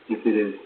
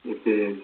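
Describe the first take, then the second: No difference in how they are said.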